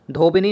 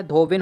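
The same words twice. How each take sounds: First: धोबिनी with a final "ee"; wrong pronunciation. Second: धोबिन ending on "n"; correct pronunciation. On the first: Teacher showing the wrong word, धोबिनी ending in "nee". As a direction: add "ee" at the end of धोबिनी. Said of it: "धोबिनी नहीं होता है". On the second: Teacher correcting the word, धोबिन ending on "n". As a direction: stop धोबिन at the "n", no final vowel. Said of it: "धोबिन होता है". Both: Shown as a demonstration.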